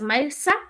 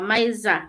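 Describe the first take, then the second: First: The middle consonant is a hissing S sound. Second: The middle consonant is a buzzing Z sound. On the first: The speaker calls it wrong. "It's not S" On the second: The speaker calls it right. "Maiza, Z"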